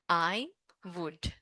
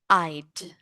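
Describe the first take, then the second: First: Both words are said fully, as two syllables. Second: The words are contracted into one short syllable. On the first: "this is I would" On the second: "we use this contraction"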